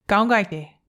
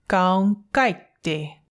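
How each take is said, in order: First: It is said at normal speed. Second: It is said more slowly.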